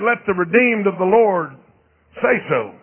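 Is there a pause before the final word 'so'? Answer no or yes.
no. It runs on with no break before 'so'. Believers should openly declare their redemption. "I read where it said"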